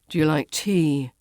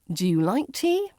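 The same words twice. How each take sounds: First: The voice stays flat or falls at the end. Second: The voice rises at the end. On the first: It sounds like a grumpy statement. The speaker calls it wrong. "with a flat tone or a falling intonation" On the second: It sounds like a question. The speaker calls it right. "yes-no questions rise at the end"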